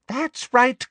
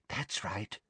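First: High-pitched, eager approval; pressing villain, voice lifted high; insistent coaxing. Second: Very soft villainous encouragement; quiet, greedy approval; hushed coaxing. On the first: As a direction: urge her on, pitched right up. Umbridge repeats it more insistently. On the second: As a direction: murmur it to draw her out. Umbridge coaxing the sobbing girl. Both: A narrator's reading.

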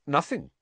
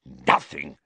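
First: Higher-pitched innocent answer; light, guileless denial; truthful. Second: Low, scornful echo; contemptuous low snarl; spat out. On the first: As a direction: answer honestly, with nothing to hide. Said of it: "said Harry truthfully". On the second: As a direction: spit the word back in disbelief. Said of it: "spat Filch". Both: A narrator's reading.

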